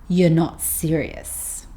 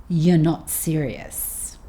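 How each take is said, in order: The two takes are said the same way.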